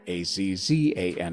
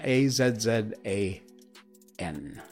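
First: Z is said the American way, as zee. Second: Z is said the British way, as zed.

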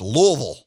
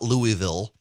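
First: The city name is said the local way. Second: The city name is said the outsider way. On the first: The speaker calls it right. "notice I'm saying it properly" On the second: The speaker calls it wrong. "it's not Louisville"

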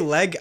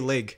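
First: The vowel is a short open e sound. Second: The vowel is raised toward an ee sound. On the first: This is how the other person says it. "You say leg" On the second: This is how the speaker says it. "I say leg"

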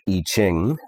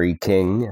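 First: The second word starts with a 'ch' sound. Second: The second word starts with a 'k' sound.

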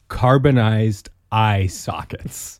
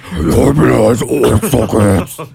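First: It is said in a normal voice. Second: It is said in a screaming voice.

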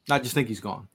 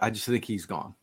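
First: It is said forcefully, with confident energy. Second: It is said tentatively, with little force.

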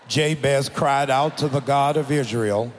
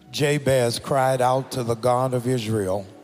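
First: It is read aloud with much more energy. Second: It is read aloud with moderate energy.

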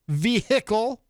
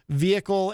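First: The H in the word is pronounced. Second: The H in the word is silent. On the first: "how I pronounce those words? I pronounce them" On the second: "some words where the H is, in fact, silent"

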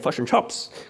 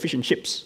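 First: The vowels are said in a New Zealand accent. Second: The vowels are said in a standard accent.

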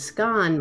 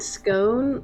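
First: It is said the southern English way. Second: It is said the northern, American-like way. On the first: "scone might be more southern" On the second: "scone might be more northern, and it's similar to the American pronunciation"

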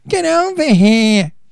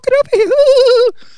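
First: It is said in a tough guy's voice. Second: It is said in a soft, effeminate voice.

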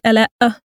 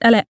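First: The final sound is strong and exaggerated. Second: The final sound is light and subtle. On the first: The speaker calls it wrong. "It's not like Ela'a" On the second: The speaker calls it right. "But it's very subtle"

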